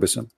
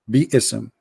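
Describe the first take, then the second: First: The word is said as one short syllable. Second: The word is said with an extra vowel. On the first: The speaker calls it wrong. "There's no Bism" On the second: The speaker calls it right. "It is Bi-ism. There's Alif here"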